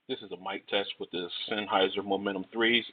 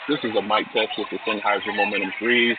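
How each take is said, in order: First: The voice is heard against a fairly quiet background. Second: The voice is heard against a noisy, crowded background. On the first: "in a semi-quiet location" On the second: "in a crowded location"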